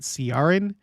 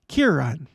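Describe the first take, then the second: First: The name begins with a soft S sound. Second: The name begins with a hard K sound. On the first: The speaker calls it wrong. "I was assuming it was pronounced Ciaran because in English, using our letters" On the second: The speaker calls it right. "the sound that the C makes is K"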